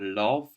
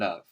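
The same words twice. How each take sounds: First: The vowel is a strong o sound. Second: The vowel is a short uh sound. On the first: The speaker calls it wrong. "We don't say com or love" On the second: The speaker calls it right. "We say come and love"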